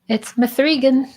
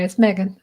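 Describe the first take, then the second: First: The name is said in a playful, altered way. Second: The name is said the ordinary, plain way. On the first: It is a deliberate joke. The speaker calls it wrong. "I have to say it that way at least once" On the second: It is the real name. The speaker calls it right.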